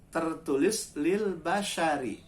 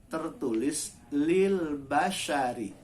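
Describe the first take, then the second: No difference in how they are said.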